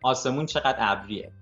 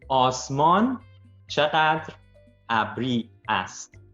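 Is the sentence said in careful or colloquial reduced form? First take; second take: colloquial; careful. First: Words are reduced and run together casually. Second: Every word is said fully and separately. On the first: It is how people talk in everyday conversation. "the way you would say it in a conversation" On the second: It is made easy for a learner to follow. "say the words in a way that I think would be easier for you to understand"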